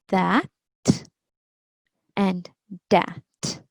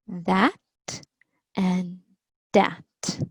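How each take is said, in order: No difference in how they are said.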